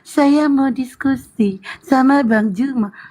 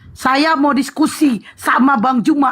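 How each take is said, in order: First: It is said with a weak, dying voice. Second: It is said with a firm, energetic voice.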